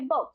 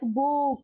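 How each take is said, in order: First: The vowel is said plainly as one sound. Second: The vowel is pushed and drawn out. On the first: The speaker calls it right. "We say book" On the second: The speaker calls it wrong. "We don't push it like book"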